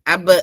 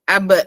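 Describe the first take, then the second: The two takes are said the same way.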